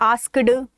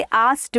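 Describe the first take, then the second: First: आस्क्ड with the k and d fully sounded, the wrong way; wrong pronunciation. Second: आस्क्ड with the k silent and a t sound at the end, like "ast"; correct pronunciation. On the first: Teacher showing students the common mistake with आस्क्ड, k and d sounded. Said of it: "ऐसे नहीं बोलते". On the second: Teacher modelling the right आस्क्ड for students, k silent, t at the end. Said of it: "का को खा जाओ, silent कर दो". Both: Shown as a demonstration.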